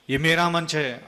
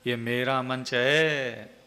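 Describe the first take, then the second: First: Angry. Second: Slow, drawn-out proud delivery; slow and haughty; said slowly with pride. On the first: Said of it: "आप चाहे उसको गुस्से में भी कहो". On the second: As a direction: stretch each word out, full of self-importance. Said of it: "अब इसको गुस्से में कहो". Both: Shown as a demonstration.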